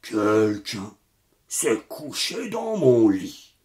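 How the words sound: It is said in a big, deep voice.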